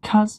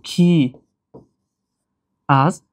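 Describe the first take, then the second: First: It is contracted into a single syllable. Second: It is said as two separate syllables. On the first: "барои осонтару оддитар шудани талаффуз" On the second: "шакли пурраш"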